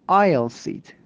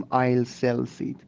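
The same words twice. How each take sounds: First: Said in the usual way. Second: "aisle" said wrongly with its silent S sounded as an s; slow wrong demo, an audible s inside "aisle"; S wrongly pronounced. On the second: Shown as a demonstration. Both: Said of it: "اس در اینجا اصلاً تلفظ نمیشه".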